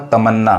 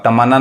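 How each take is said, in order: First: तमन्ना with Hindi dental त, not ट; lower-pitched तमन्ना starting on a dental t; soft dental t. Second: तमन्ना as "Tamanna" with English hard t; wrong hard t. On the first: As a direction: say तमन्ना with the tongue on the teeth for t. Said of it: "यानी त पढ़ाएगा". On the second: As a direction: say तमन्ना with a retroflex ट at the start. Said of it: "ट नहीं पढ़ेगा". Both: Shown as a demonstration.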